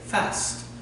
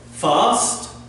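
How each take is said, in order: First: It is said in a northern English accent. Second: It is said in a southern English accent. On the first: "in parts of the north of England, they do actually say fast" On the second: "British pronunciation, fast. That's uh, from the south of England"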